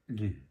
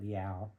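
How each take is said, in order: First: The word sounds like 'loo' with one vowel. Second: The word sounds like 'lee-ow' with two vowels. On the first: The speaker calls it right. "It was just pronounced Lou" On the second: The speaker calls it wrong. "I used to call it Liao"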